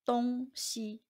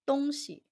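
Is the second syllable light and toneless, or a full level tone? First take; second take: full level; light. First: The second syllable has a full level tone. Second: The second syllable is light and toneless. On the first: It means east and west. "When referring to direction, which is east-west, it is 东西" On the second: It means a thing or things. "When referring to things, the pinyin is 东西"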